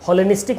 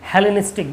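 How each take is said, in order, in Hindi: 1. पहला स्वर 'aw' जैसा बोला जाता है। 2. पहला स्वर 'eh' जैसा बोला जाता है। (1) "हॉलेनिस्टिक नहीं, गलत प्रोनाउंस हो गया"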